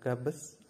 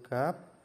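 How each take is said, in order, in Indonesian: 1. Kedua konsonan akhir dibunyikan, jadi dua suku kata. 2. Hanya satu konsonan akhir yang dibunyikan, jadi satu suku kata. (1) "bukan gabes" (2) "Langsung gap"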